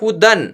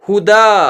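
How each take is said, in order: First: The word ends with an 'an' sound. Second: The word ends in a long 'a' vowel. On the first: The reader continues without stopping. "अगर नहीं रुकते हैं तो फिर इसको पढ़ेंगे हुदन" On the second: The reader stops on this word. "अगर हम यहाँ रुक जाते हैं तो ... इसको पढ़ेंगे हुदा"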